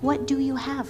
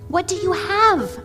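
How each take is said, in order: First: It is said in a gentle tone. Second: It is said in an excited tone.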